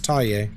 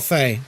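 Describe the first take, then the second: First: The name begins with a t sound. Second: The name begins with an f sound. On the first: The speaker calls it right. "that's how the ghost is pronounced" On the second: The speaker calls it wrong. "Faye is wrong"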